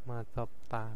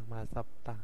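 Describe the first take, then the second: Both takes have the same delivery.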